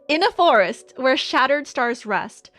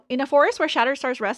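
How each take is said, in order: First: The line is read at a slow pace. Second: The line is read at a fast pace. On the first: The speaker calls it right. "Let's slow it down" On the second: The speaker calls it wrong. "I was reading fast"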